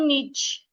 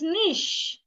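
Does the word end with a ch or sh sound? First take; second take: ch; sh. First: The word ends with a ch sound. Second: The word ends with an sh sound. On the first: The speaker calls it wrong. "It's not niche" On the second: The speaker calls it right. "It is niche. ... should be sounded like S H"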